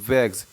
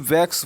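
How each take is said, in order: First: The word ends with a g then s. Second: The word ends with a k then s. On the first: The speaker calls it right. "ना कि वैक्स बोलते हैं" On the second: The speaker calls it wrong. "ना कि वैक्स बोलते हैं"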